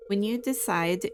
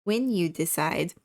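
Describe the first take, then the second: First: Said in the usual way. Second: "when" punched a little louder as a foregone conclusion; stress on when. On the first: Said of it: "not if". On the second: Acted. Store representative presuming the newcomer will join, stress on "when". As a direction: hit "when" firmly, leaving no doubt. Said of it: "when, not if".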